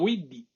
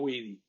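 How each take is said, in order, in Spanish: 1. La d es oclusiva, con cierre completo. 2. La d es suave, sin cierre completo. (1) "con una oclusiva" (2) "no leían Widi"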